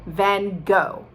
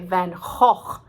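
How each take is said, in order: First: It is said the American way. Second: It is said the Dutch way. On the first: "We are fine with Vincent van Gogh" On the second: "if you really want to sound Dutch"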